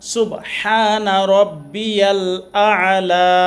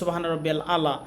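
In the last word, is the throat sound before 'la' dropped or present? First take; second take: present; dropped. First: The throat sound before 'la' is clearly present. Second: The throat sound before 'la' is dropped. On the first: The speaker calls it right. "আ আলা বলবো" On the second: The speaker calls it wrong. "মাঝখানে আইনটা বাদ হয়ে যাবে"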